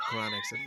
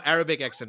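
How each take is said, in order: First: Laughing shout. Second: Said in the usual way. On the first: Shown as a demonstration. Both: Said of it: "Oh, no, Arabic accent".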